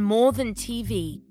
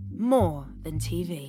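First: It is said in a plain, ordinary voice. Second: It is said in a showy advert-style voice.

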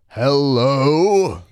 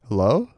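First: It is said confidently and clearly enunciated. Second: It is said timidly and hesitantly. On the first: The speaker is trying to sound bolder. "This time a bit more confident and enunciated" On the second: The speaker is unsure and a little afraid. "I sheepishly called out"

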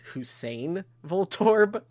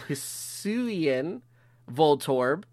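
First: The first word sounds like the name Hussein. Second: The first word sounds like his-WEE-an. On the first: The speaker calls it wrong. "I want to say it's Hussein Voltorb" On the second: The speaker calls it right. "So it's Hisuian. Did I say that right"

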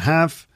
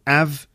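First: The h at the start is pronounced. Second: The h at the start is dropped.

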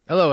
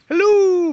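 First: It is said in a flat, bored way. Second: It is said in a lively, excited way.

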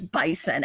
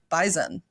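First: It is said with the standard pronunciation. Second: It is said with the local regional pronunciation. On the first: The speaker calls it right. "we've been pronouncing bison wrong" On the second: The speaker calls it wrong. "how do you pronounce the word B-I-S-O-N? And they were like"

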